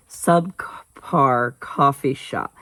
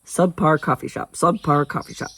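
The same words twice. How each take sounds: First: Slow, halting attempt at SUBCAR; careful, drawn-out tongue-twister try. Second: Quick tongue-twister repeat of SUBPAR COFFEE SHOP; brisk, run-together repeats; fast. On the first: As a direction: pick through SUBCAR COFFEE SHOP syllable by syllable. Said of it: "I can say it fast, just not slow". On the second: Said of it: "I guess I can say it fast". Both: Shown as a demonstration.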